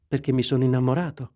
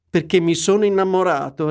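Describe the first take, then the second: First: Said in the usual way. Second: Scornful echo, a bit louder; mocking angry repeat. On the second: A narrator's reading. Scrooge mockingly repeating his nephew's answer, angry. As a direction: throw his words back at him. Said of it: "ripeté Scrooge, rabbioso".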